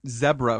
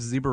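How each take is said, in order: First: Zebra is said with a British accent. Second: Zebra is said with an American accent.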